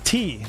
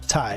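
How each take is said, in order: First: The syllable has an 'ee' vowel sound. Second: The syllable has an 'eye' vowel sound. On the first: The speaker calls it right. "it's T" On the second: The speaker calls it wrong. "not Ty"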